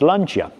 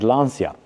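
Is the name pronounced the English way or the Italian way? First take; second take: Italian; English. First: The name is said with Italian pronunciation. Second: The name is said with English pronunciation. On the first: The speaker calls it right. "in Italian, it is pronounced Lancia" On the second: The speaker calls it wrong. "In English, if you are to read it um, as it is, you'll maybe pronounce it Lancia, which in the classic Italian circles is frowned upon"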